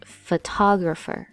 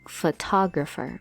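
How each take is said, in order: First: The word is said smoothly all together. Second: The word is said smoothly all together.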